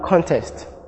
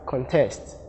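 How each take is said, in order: First: The stress is on the first syllable. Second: The stress is on the second syllable. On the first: It is used as a noun. "The noun contest" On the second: It is used as a verb. "the verb form is pronounced as contest"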